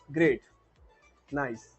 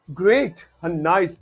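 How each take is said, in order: First: It is said flatly, without expression. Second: It is said with lively, enthusiastic expression.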